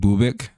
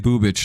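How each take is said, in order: First: The name ends with a 'k' sound. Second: The name ends with a 'ch' sound. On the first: The name is said the way it is meant to be said. "they should put a K in there somewhere" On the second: The name is said wrong on purpose for fun. "I'm gonna say Bubich though because it's way funnier"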